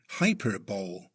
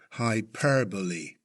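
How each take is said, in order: First: The main stress is not on the second syllable. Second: The main stress is on the second syllable. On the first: The speaker calls it wrong. "A first-time reader might be tempted to say" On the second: The speaker calls it right. "with emphasis on the second syllable"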